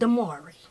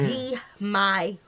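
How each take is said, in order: First: The middle syllable sounds like 'mar'. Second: The middle syllable sounds like 'my'. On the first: The speaker calls it wrong. "not Damari" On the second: The speaker calls it right. "I spelled his name the way you need to sound it out"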